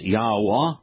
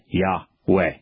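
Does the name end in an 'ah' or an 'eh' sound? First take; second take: ah; eh. First: The name ends with an open 'ah' sound. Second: The name ends with an 'eh' sound. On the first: The speaker calls it right. "it is Yahweh" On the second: The speaker calls it wrong. "not Yahweh"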